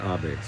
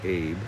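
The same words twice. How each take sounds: First: The name is said the way growers pronounce it. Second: The name is said the way its spelling looks. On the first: This is how the name is properly said. "they pronounce it Abe" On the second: This is a reading guessed from the spelling. "my brain wants to say Abe, because that's what it's looking at"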